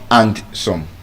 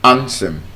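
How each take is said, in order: First: The D sound is pronounced in the word. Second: The D sound is silent in the word. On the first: The speaker calls it wrong. "It's not and some" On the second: The speaker calls it right. "The D is silent"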